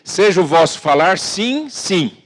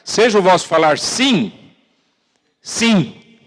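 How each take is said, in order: First: The phrase is read quickly without lingering. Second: The phrase is read slowly and deliberately. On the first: The speaker calls it wrong. "Você não pode ler rápido" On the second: The speaker calls it right. "tem que ler devagar"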